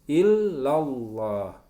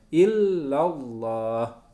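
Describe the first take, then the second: No difference in how they are said.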